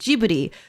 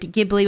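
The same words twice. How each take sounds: First: It begins with a soft J sound. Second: It begins with a hard G sound. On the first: This is the Japanese pronunciation. "the Japanese spelling and pronunciation of it is Ghibli" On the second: This is the original word's pronunciation. "with a hard G"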